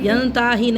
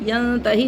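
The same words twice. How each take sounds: First: The middle vowel is drawn out long. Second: The middle vowel is said short and quick. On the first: The speaker calls it wrong. "यंताही नहीं" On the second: The speaker calls it right. "जल्दी"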